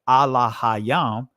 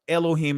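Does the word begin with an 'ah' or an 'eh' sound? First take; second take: ah; eh. First: It starts with 'ah' and keeps 'ah' vowels. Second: It starts with 'eh' and has 'o' and 'ee' vowels. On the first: This is the original form of the word. The speaker calls it right. "This is the ancient Hebrew pronunciation" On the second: This is a changed form of the word. The speaker calls it wrong. "Removed all the ahs, silenced them, and formed this word Elohim"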